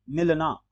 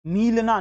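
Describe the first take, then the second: First: मिलना as a quick "milna"; short i. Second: मीलना as "meelna"; wrong long ee. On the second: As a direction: stretch the vowel of मी in मीलना. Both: Shown as a demonstration. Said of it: "मीलना नहीं".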